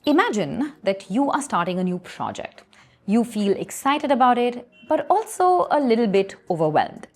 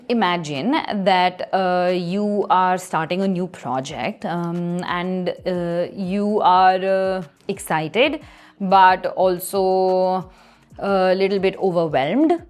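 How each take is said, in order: First: It is broken up by silent pauses, no fillers. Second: It is broken up by filler sounds like um.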